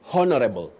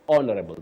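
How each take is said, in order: First: The word starts with an H sound. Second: The word starts without an H sound. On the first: The speaker calls it wrong. "So we don't say honorable" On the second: The speaker calls it right. "That is the right pronunciation. The H is silent"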